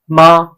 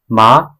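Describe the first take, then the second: First: The pitch stays high and level. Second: The pitch rises from mid to high. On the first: It means mother. "with the first sound, first tone means mother" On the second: It means linen. "with the second tone means linen"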